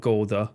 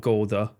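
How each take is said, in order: First: The name is said the English way. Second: The name is said the English way.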